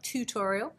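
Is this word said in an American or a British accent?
American. It is said in an American accent. The speaker calls it wrong.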